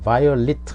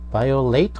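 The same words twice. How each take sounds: First: It is said with the adjective pronunciation. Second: It is said with the verb pronunciation. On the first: The word is used as an adjective. "violate 하면 이제 형용사도 되니까" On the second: The word is used as a verb. "violate 하면 동사고"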